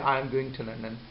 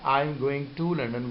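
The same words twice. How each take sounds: First: The word to is reduced and weak. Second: The word to keeps its full vowel. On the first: The speaker calls it right. "we say" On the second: The speaker calls it wrong. "instead of saying"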